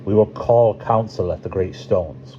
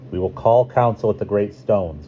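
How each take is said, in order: First: Put-on lightly accented character voice for a council announcement; Corrales accent. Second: Lightly voiced character, accent not yet right; wrong Corrales voice. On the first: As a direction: give the character a slight, measured accent. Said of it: "let's do the correct accent for Corrales". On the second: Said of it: "doing Corrales' voice completely wrong". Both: A narrator's reading.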